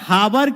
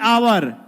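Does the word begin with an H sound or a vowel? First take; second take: H sound; vowel. First: The word begins with an audible H sound. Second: The word begins directly with a vowel sound. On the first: The speaker calls it wrong. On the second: The speaker calls it right.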